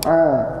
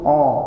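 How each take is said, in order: First: The vowel is said open and thin, lips unrounded. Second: The vowel is said with rounded, pushed-out lips. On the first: The speaker calls it right. "Yang benar a" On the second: The speaker calls it wrong. "mengucapkan a dengan mencucu ... itu a-nya salah"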